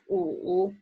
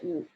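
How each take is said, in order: First: The low tone is said in full. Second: The low tone is cut short. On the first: Said alone or for emphasis. "pronounce the full tone" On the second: Normal in conversation. "either say 五"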